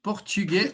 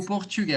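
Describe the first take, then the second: First: PORTUGUÊS with closed final "ay"; closed vowel accent. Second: PORTUGUÊS with open final "eh"; open vowel accent. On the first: Teacher repeats both accepted pronunciations, closed final vowel. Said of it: "esses dois accent". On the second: Teacher repeats both accepted pronunciations, open final vowel. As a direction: finish PORTUGUÊS on "geh". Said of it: "mais abertinho ele é". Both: Shown as a demonstration.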